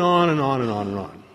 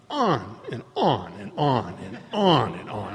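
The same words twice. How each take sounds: First: Said in the usual way. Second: "On and on" stretched slow and low, each "on" swelling; endlessly drawn out. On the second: Retold or imitated. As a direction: drag every "on" out as if it never ends. Mimics woman's endless rambling.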